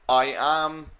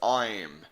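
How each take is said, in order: First: Two full separate words are said. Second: The words are merged into one syllable.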